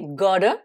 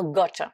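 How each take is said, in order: First: American "gotta" with the double T as a D; American flapped T in "gotta"; American accent. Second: British "got" with a true T sound; British crisp-T pronunciation of "gotta"; British accent. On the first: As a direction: say "gotta" like "godda", American style. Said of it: "avec l'accent américain". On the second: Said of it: "les Britanniques vont dire". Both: Shown as a demonstration.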